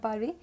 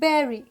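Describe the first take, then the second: First: The word does not sound like 'berry'. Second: The word sounds like 'berry'. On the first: The speaker calls it wrong. "this is not bury" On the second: The speaker calls it right. "this is bury... it is berry"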